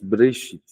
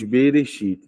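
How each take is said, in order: First: The b and r are said together, no vowel. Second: A vowel is heard between the b and r. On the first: The speaker calls it right. "Mas Breshit" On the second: The speaker calls it wrong. "Não se diz Bereshit"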